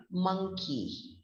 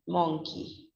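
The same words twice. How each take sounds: First: "monkey" as "MUNG-kee"; standard pronunciation. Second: "monkey" with an o, "MONG-kee"; spelling pronunciation. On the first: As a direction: say "monkey" with a short uh. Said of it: "We call it as a monkey". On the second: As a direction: sound "monkey" to rhyme with donkey. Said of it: "We find the same vowel in monkey". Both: Shown as a demonstration.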